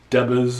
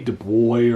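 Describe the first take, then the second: First: The name is pronounced the English way. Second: The name is pronounced the French way. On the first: "or it could be English" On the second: "I'm pronouncing it like it's French"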